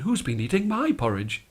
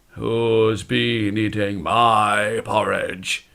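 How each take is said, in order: First: It is said in a polite voice. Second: It is said in a deep, gruff voice. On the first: "in a polite voice" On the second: "in his deep gruff voice"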